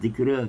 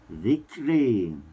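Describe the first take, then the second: First: The final vowel leans slightly toward 'i'. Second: The final vowel leans strongly toward 'i'. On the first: The speaker calls it wrong. "kalau zikra di ditaklil" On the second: The speaker calls it right. "tapi dicondongkan lagi zikri"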